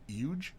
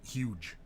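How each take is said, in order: First: The word begins without an h sound. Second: The word begins with an h sound.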